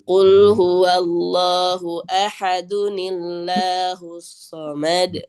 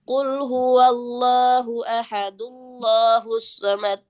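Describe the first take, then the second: First: Ahad links into Allahus through an added ni. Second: Ahad links straight into Allahus without ni. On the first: The speaker calls it right. "ditambahin atau diganti dengan huruf nun berharokat kasroh" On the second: The speaker calls it wrong. "nggak bisa kita baca ... tidak bisa"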